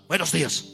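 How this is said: The greeting sounds grudging and unfriendly.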